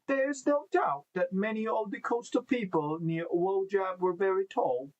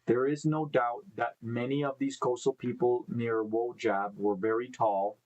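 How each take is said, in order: First: It is read in an attempted Australian accent. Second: It is read in the speaker's normal accent.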